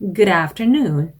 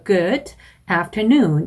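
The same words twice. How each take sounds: First: The d links smoothly into the next vowel. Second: The two words are said separately with a break. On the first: The speaker calls it right. "연음으로 해주시는 게 더 유창성을 보여줄 수 있는 방법입니다" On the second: The speaker calls it wrong. "이렇게 띄어서 발음하는 것보다는"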